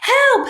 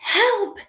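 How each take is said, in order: First: It is said loudly. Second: It is said quietly.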